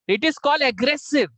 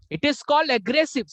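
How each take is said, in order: First: IS stressed, slow and high; slow lecturing stress on "is"; slow emphatic. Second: "called" stressed, slow and high; slow lecturing stress on "called"; slow emphatic. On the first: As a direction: lean hard on "is". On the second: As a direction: punch the word "called". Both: Shown as a demonstration. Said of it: "repeated slow emphasis".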